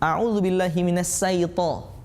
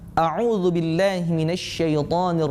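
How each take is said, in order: First: The word for Satan begins with a plain s. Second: The word for Satan begins with an sh sound. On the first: The speaker calls it wrong. "dengan huruf sa" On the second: The speaker calls it right. "yang betul adalah"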